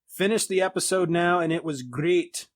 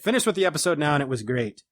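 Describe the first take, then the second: First: It is read in a put-on accent. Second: It is read in a normal voice.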